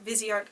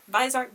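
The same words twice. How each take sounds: First: Viseart said in three syllables, VIZ-ee-art; alternative pronunciation. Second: Vizart said in two syllables, VY-zart; alternative pronunciation. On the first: Reviewer offers another way to say the brand, Viseart as VIZ-ee-art. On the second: Reviewer offers one way to say the brand, Vizart as VY-zart. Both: Shown as a demonstration. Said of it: "whatever you choose to say it".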